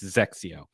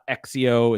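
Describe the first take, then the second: First: The name begins with a z sound. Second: The name begins with a vowel sound. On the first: The speaker calls it right. "It's Zexio" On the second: The speaker calls it wrong. "It's not Exio"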